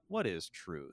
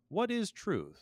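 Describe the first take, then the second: First: The question sounds doubtful and dismissive. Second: The question sounds honest and curious. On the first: The asker doubts the question can be answered. "I usually read it with some sort of skepticism on the part of Pilate" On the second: The asker really wants to know the answer. "it could be an honest question"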